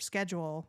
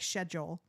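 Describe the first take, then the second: First: It is said with an American pronunciation. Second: It is said with a British pronunciation. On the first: This is how the speaker's own group says it. The speaker calls it wrong. "instead of schedule" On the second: This is how the other accent says it. The speaker calls it right. "when they say schedule"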